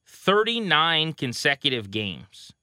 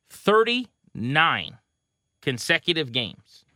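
First: THIRTY-NINE drawn out slowly; measured, weighty reveal of "thirty-nine"; slow emphasis. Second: THIRTY ... NINE, very slow and higher; "thirty-nine" hammered home word by word, very slowly; dramatic repeated emphasis. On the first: Reads out a crazy stat. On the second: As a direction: stretch "thirty-nine" high and split it in two. Repeats the stat for effect. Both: Real, not acted.

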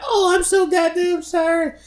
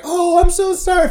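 First: Very high, slow, put-on sorry voice; exaggerated mock apology. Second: High, mock-sweet apology; mock apologetic clerk. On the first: Mimicking the clerk apologizing again, slow squeaky mockery. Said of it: "She's like". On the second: Mimicking the front desk lady, high fake apology. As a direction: squeak it like a flustered clerk. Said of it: "she's like".

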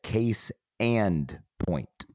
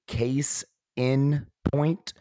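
First: "and" said in full, set apart; slow, separated words with a clear "and"; stress on AND. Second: "in" set apart and drawn out; slow, separated words with a clear "in"; stress on IN. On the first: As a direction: lay out "case and point" slowly, leaning on AND. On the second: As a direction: lay out "case in point" slowly, leaning on IN. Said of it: "or is it case and point". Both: Shown as a demonstration.

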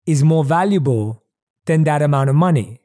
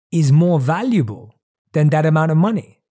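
Both takes have the same delivery.

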